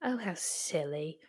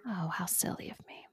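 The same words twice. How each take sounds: First: Mock teasing echo. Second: Mock self-scolding. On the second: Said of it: "mock self-scolding".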